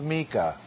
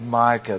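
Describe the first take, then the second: First: The first syllable sounds like 'mee'. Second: The first syllable does not sound like 'mee'. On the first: The speaker calls it right. "This is Micah, if we're pronouncing it correctly" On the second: The speaker calls it wrong. "This is not the book of Micah"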